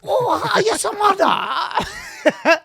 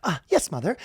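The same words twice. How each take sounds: First: Very high, loud wail in mock Asian accent; hammed-up Asian-accent shriek. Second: Higher-pitched British schoolboy; polite mock British accent. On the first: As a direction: stretch it out slowly in a cartoon Asian accent. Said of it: "in a racist Asian accent". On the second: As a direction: answer like a dutiful British schoolboy. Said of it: "a British schoolboy".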